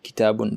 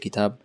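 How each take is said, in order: First: The word ends with its full case ending. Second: The word stops on its final consonant. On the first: The speaker calls it right. "read kitabun" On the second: The speaker calls it wrong. "don't say kitab"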